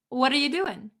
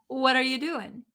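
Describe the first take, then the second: First: The words run together with reduced sounds. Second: The same.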